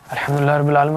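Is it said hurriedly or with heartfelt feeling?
hurriedly. It is rattled off hurriedly, without feeling.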